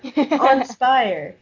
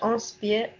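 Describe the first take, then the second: First: It is said with an English accent. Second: It is said with a French accent. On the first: The speaker calls it right. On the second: The speaker calls it wrong.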